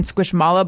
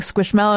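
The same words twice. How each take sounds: First: Squishmallow said squish-MAH-low, with an open ah; her old way. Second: Squishmallow with an eh, as if spelled mellow; giving in. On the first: Mom who refused to say Squishmallow wrong, with a broad ah. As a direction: Squishmallow with an ah sound, as if spelled mallow. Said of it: "walking around saying Squishmallow because I just refused to, to say it wrong". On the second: Mom finally giving in on Squishmallow, saying it with an eh. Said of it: "that's how it's supposed to be pronounced". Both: Retold or imitated.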